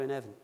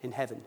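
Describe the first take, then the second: First: HEAVEN said without its H; dropped H. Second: HEAVEN with the H sounded, said lower and softer; corrected H. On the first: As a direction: drop the H at the start of HEAVEN. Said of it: "I dropped my H's". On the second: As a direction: put the H back on HEAVEN, as a quiet self-correction. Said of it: "sorry, I dropped my H's". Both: Real, not acted.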